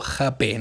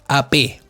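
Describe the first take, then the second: First: The word begins with a raspy consonant. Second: The word begins with a vowel sound. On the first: "se pronuncia como J" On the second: "se pronuncia muda la H"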